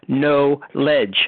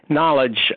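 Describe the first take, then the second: First: It is split into two words, no and ledge. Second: It is said as the ordinary single word.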